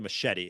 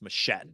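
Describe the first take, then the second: First: It is said with a standard English pronunciation. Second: It is said with a Creole pronunciation. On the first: "they don't say machete" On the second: "in Creole, they pronounce it machete"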